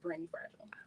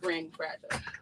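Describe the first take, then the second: First: The name is said quickly. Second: The name is said slowly. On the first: "you said it fast" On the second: "Say it one more time slow"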